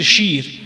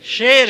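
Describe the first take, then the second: First: It is said in an Iranian Persian accent. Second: It is said in an Afghan Persian accent. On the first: "اگر فارسی ایران باشه باید بگیم شیر شیر" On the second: "ما شعر به کار میبریم با یای معروف در افغانستان"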